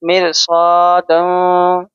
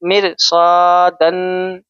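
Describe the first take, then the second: First: The final n is hidden in a nasal hum. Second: The final n is pronounced fully and clearly. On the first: "हम यहाँ पे इख्फा करेंगे" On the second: "अगर इजहार होगा तो होगा मिर सादन"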